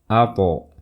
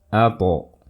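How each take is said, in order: No difference in how they are said.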